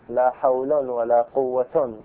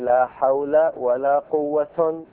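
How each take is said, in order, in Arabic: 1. كلا الاسمين ينتهي بضمة منونة -un. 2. الأول ينتهي بـ -a، والثاني ينتهي بـ -un. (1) "ورفعهما" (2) "وفتح الأول ورفع الثاني"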